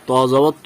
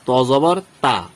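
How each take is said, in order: First: The vowel is a rounded o-like sound. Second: The vowel is a clear open a. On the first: The speaker calls it right. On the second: The speaker calls it wrong.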